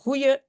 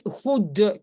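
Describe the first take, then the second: First: The d sound becomes a glide sound. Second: The word keeps a d sound in the middle. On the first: "qui devient goeie" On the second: "goede qui devient goeie"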